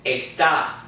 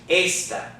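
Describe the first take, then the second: First: The stress is on the second syllable. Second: The stress is on the first syllable. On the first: "we're pronouncing it está" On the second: "is pronounced esta"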